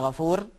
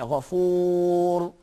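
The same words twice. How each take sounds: First: The R sound is thin and light. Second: The R sound is thick and heavy. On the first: The speaker calls it wrong. "You don't say" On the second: The speaker calls it right. "you say"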